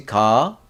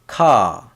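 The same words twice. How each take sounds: First: Ka, G-like onset with rising tune; G-like sound demo. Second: Ka, loud K onset, falling tune; K sound demo. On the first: Teacher comparing G and K, "ka" as rising G sound. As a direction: say "ka" close to "ga", lifting at the end. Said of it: "G sound". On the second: Teacher comparing G and K, "ka" as falling K sound. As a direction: say "ka" with a strong K, dropping in pitch. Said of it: "this is a k sound". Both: Shown as a demonstration.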